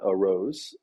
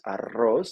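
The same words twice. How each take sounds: First: It sounds like the English words 'a rose'. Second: It is said the Spanish way. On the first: It means a rose flower. The speaker calls it wrong. "not arroz, which will result in a rose" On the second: It means rice. The speaker calls it right. "arroz should be rice. Arroz"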